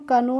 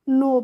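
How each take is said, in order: First: A k sound is heard before the n. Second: The word starts directly with an n. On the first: The speaker calls it wrong. "कनो नहीं पढ़ते हैं" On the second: The speaker calls it right. "के होती है वो क्या होती है? साइलेंट होती है, इसलिए इसको हम नो पढ़ते हैं"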